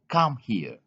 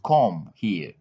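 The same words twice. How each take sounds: First: The vowel in 'come' is an 'uh' sound. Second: The vowel in 'come' is an 'o' sound. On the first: The speaker calls it right. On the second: The speaker calls it wrong.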